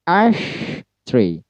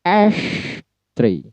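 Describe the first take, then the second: First: Slow syllable-by-syllable demo of Ash tree; stress on ASH, split. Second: Teacher demo of stressed ash. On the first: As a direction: separate the syllables, punch ASH. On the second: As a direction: hit ASH up high, let "tree" fall. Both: Shown as a demonstration. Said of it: "ditekan atau di-stress dengan nada tinggi".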